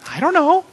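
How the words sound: It is said in a cute childlike voice.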